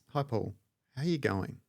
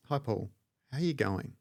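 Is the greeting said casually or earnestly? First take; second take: earnestly; earnestly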